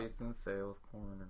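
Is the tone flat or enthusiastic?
flat. It is said flatly, without enthusiasm.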